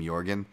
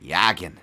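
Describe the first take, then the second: First: It is said in his ordinary accent. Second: It is said in a Boston accent.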